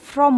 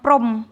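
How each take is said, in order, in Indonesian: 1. Kata "from" dimulai dengan bunyi f. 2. Kata "from" dimulai dengan bunyi p. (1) "Baca from itu from" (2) "bukan prom"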